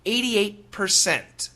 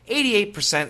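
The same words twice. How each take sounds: First: It is said carefully with the final T. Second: It is said quickly with no final T.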